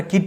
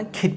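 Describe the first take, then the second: First: "কিড" with a plain k, no puff; unaspirated k. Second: "কিড" with a puffed kh onset; aspirated k. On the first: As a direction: start "কিড" on a dry ক. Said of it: "কিড বলবো না". ("কিড" শুরুতে সাদা ক) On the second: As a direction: say "কিড" as khid. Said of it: "কিড বলবো". ("কিড" শুরুতে খ উচ্চারণ) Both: Shown as a demonstration.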